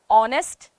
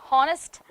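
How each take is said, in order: First: The h at the start is silent. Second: The h at the start is sounded. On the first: The speaker calls it right. "the real pronunciation is honest. Okay, H is silent" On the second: The speaker calls it wrong. "we always say honest"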